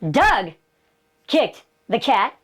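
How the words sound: The stress falls on the word Doug. It was this person, not someone else, who kicked it. "I'm saying, John didn't kick the cat. I didn't kick the cat"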